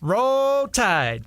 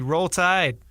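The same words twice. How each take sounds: First: It is said enthusiastically, with a slight Southern touch. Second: It is said flatly, with little enthusiasm.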